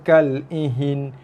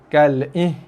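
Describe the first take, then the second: First: An extra vowel comes before the final n. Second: The final n sound is left out. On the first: "Jangan dibaca dengan kal ihin" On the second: "buang nun"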